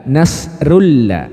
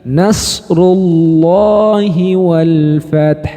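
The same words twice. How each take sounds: First: Nasrullah cut short, without the drawn-out hi; the clipped, wrong Nasrullah; wrong reading. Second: Nasrullahi wal fath, thick and drawn out, slow; slow correct Nasrullahi wal fath; right reading. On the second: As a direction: recite Nasrullahi fully with a heavy lam. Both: Shown as a demonstration.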